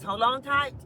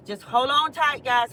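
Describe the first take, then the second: First: Said in the usual way. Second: Calling out. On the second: Real, not acted. Calling out to viewers.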